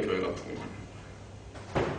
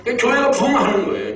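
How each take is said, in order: First: Slow, whispered echo; hushed repeat. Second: High-pitched emphatic conclusion; emphatic preaching. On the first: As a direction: let it fall to a slow whisper. Repeats the point under breath. (속삭이듯 작게 천천히 되뇌며) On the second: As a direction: lift the pitch and drive it home. Emphatic conclusion, then repeated hushed. (높여 강조하는 설교조) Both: Real, not acted.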